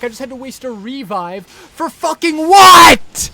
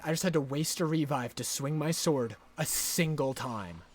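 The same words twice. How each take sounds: First: Loud, high yell of outrage; furious shout. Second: Softer, lower sulky restatement; deflated grumble. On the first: Gamer raging about wasting his revive, a furious shout. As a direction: bellow the complaint. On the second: Gamer repeating the wasted-revive gripe, soft and sulky. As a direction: mutter the complaint, beaten. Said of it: "I'm so mad". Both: Real, not acted.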